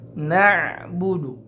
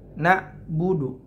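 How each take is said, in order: First: The middle consonant is a throaty ain sound. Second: The middle consonant is a plain glottal stop. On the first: The speaker calls it right. "na'budu harus terasa ainnya" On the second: The speaker calls it wrong. "Jangan sampai ke hamzah. ... Tidak tepat"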